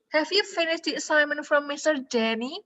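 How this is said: It is said with question intonation. The speaker is asking. The speaker calls it right. "Nanya dia"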